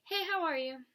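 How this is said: It sounds like a casual, friendly greeting.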